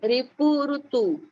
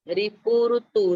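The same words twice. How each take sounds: First: रिपु said slowly with री, ऋतु with रु; teacher models रिपु and ऋतु; contrast री and रु. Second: रिपु with a short री, ऋतु with a rounded रु; second model of रिपु ऋतु; contrast री and रु. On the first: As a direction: draw out रिपु ऋतु, marking री against रु. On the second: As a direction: repeat रिपु ऋतु clearly. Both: Shown as a demonstration. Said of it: "री, रु का उच्चारण अलग है".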